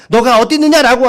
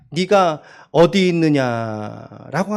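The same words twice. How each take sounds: First: 너가 어디 있느냐 louder, falling on 있느냐; firm call. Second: Gentle question tune. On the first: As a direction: say 너가 어디 있느냐 firmly with a falling end. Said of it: "이 말씀까지만". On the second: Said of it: "저 억양이 어떤 억양으로 말씀하셨을까요?". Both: Shown as a demonstration.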